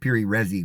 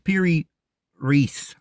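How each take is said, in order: First: The second name is said like 'Resi'. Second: The second name is said like 'Reis'. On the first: The speaker calls it wrong. "I always say Piri Resi because I've I've said that with so long, but I know that's not the right pronunciation" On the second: The speaker calls it right. "It's Piri Reis"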